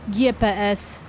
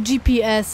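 First: The letters are said with Polish letter names. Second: The letters are said with English letter names. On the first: "a nie GPS?" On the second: "dlaczego my mówimy GPS ... Co to za jakieś amerykańszczenie"

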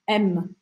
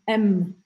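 No difference in how they are said.

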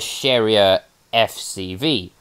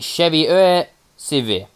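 First: The name is pronounced with English sounds. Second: The name is pronounced with French sounds. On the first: "the English version of this would be the Cherrier FCV" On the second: "Is how the French say it"

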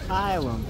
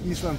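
First: The word is said with English pronunciation. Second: The word is said with Russian-style pronunciation. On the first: "по-английски" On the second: "по-русски"

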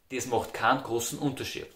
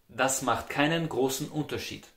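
First: It is said in Austrian dialect. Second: It is said in standard German.

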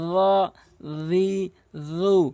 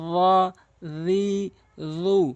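First: The consonant is made with the tongue at the teeth. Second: The same.

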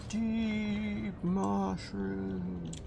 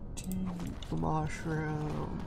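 First: It is said in a deep, pained voice. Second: It is said in a normal voice.

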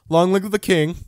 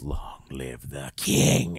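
First: It is said quickly without menace. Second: It is said slowly and menacingly.

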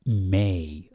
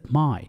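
First: The vowel sounds like the word 'may'. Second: The vowel sounds like the word 'my'. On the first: The speaker calls it right. "لأن يوجد هناك حرف a" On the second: The speaker calls it wrong. "هناك من ينطقها my ليست my"

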